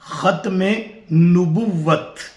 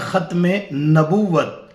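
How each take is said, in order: First: The n in the second word takes a 'u' vowel. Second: The n in the second word takes an 'a' vowel. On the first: The speaker calls it right. "नून पर जबर नहीं बल्कि पेश है" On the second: The speaker calls it wrong. "अक्सर लोग इसके लफ्ज पढ़ने में भरपूर गलती करते हैं। वो पढ़ते हैं"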